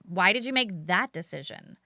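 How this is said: The question sounds doubtful with a skeptical edge. The asker is judging the decision. The speaker calls it wrong. "saying it with an edge of skepticism"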